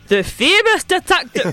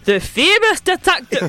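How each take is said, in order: First: It is said in a put-on Scottish accent. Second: It is said in a put-on Scottish accent.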